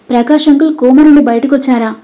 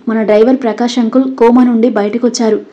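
First: A lightly raised, happy question; glad surprise. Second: Said in the usual way. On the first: A narrator's reading. Nandu hears the uncle is out of coma, gladly surprised. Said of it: "అని సంతోషంగా నవ్వి".

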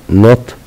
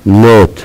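First: نوت with a short "o", like "not". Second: نوت with long "oh", like "note"; long o name sound. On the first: Teacher summing up the rule, short o. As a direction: say نوت using the letter's sound. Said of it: "ننطق صوتها". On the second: Teacher summing up the rule, long o. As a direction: say نوت using the letter's name. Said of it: "تنتهي بحرف الإي ننطق". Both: Shown as a demonstration.

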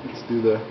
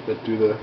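No difference in how they are said.

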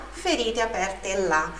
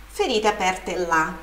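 No difference in how they are said.

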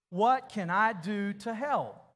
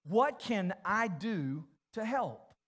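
First: Louder and slow, every word landed; said out loud like you mean it. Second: Slow, spelled out for writing. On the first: Preacher leading the congregation, louder and slow. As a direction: proclaim it together with full conviction. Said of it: "Say it like you mean it". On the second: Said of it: "I want you to write this question down". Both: Shown as a demonstration.

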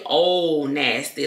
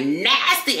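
First: Said in the usual way. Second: NASTY higher and stretched on the first syllable; catchphrase NASTY, pitched up and emphatic; signature NASTY. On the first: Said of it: "I don't even say, "Oh, nasty". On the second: Shown as a demonstration. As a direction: punch and draw out NASTY. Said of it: "I be like".

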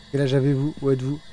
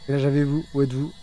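Both takes have the same delivery.

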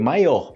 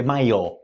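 First: "maior" with its final R audible as H; final R sounded. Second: "maior" ending in a bare open o; final R dropped. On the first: Teacher gives the correct spelling, audible-R demonstration. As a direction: add a breathy R ending to "maior". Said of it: "Você vai escrever". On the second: Teacher warns about spelling, dropped-R demonstration. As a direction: leave the R off "maior". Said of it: "Não vai escrever assim". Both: Shown as a demonstration.

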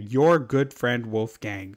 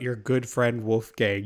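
First: "Your" drawn out and emphatic, then drop away; pointed stress on Your. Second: Said in the usual way. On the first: Acted. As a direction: lean slowly on "Your", accusingly. Repeats it pointedly, blaming the friend.

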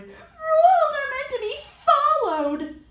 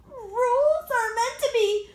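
First: Loud desperate shout, higher. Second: Raised, pushy insistence; insistent raised voice. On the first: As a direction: yell it to stop her. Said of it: "Ian shouted". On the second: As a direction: say it like a stubborn rule-keeper. Brother insists on rules. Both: Acted.

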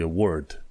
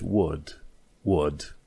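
First: "word" with the R sounded, American style; American pronunciation. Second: "word" with no R, a held "uh" vowel; British pronunciation. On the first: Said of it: "american e word". ("word" cu R pronunțat, americănește) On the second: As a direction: drop the R in "word", British style. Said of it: "atunci R-ul nu se pronunță". ("word" fără R, cu un fel de ă, britanic) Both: Shown as a demonstration.

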